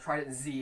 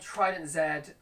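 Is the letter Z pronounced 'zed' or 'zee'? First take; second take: zee; zed. First: The Z is pronounced 'zee', American style. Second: The Z is pronounced 'zed', non-American style.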